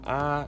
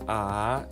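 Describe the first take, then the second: First: The pitch stays level throughout. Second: The pitch falls low and then rises. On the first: "it's flat" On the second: "inashuka, then inainuka"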